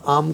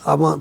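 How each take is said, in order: First: The word ends on the 'm' consonant. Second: The word ends with a final 'a' vowel. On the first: This is how it is said in Hindi. "Hindi में हम आम कहते हैं" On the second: This is how it is said abroad. "आमा थोड़ा English pronunciation है उसका"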